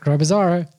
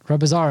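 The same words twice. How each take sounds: First: The name is said at a slower pace. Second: The name is said at a quick pace. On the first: The speaker calls it wrong. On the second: The speaker calls it right.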